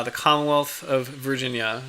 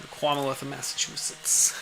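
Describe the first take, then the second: First: Said in the usual way. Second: Put-on "Commonwealth" in a soft Boston accent, said kwahmuhwealth, with the l dropped; a quieter, playful Boston accent on "Commonwealth". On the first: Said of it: "it's really fun to hear them say that in an accent". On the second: Streamer savouring the Boston accent from a movie. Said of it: "fun to hear them say that in an accent".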